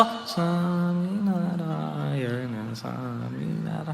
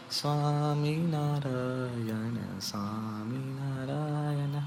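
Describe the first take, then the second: First: Chorus sinking almost into silence, very slow; even softer chorus. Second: Very soft, very slow drawn-out chant; hushed dhun chant. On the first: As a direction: mumble the chant down into the ground. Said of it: "chorus તો એનથી પણ અંદર જતું રહ્યું હતું ગ્રાઉન્ડમાં". (એનાથી પણ ધીમો, દબાયેલો chorus) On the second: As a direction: chant it barely audible, stretched out. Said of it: "હું તમને એક્ઝેક્ટ એનેક્ટ કરી આપું". (chanted, ખૂબ ધીમે, ધીમા સ્વરે ધૂન) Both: Retold or imitated.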